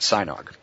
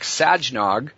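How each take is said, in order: First: The first syllable is said like 'sigh'. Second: The first syllable is said like 'saj'. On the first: The speaker calls it right. "it's pronounced like you let out a sigh and you drank some eggnog" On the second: The speaker calls it wrong. "it sounds like Sajnog"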